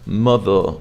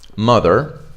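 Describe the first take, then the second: First: British accent, the final R is dropped. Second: American accent, the final R is pronounced.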